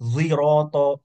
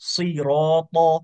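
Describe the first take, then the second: First: The first sound is a z-like sound. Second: The first sound is a heavy emphatic s.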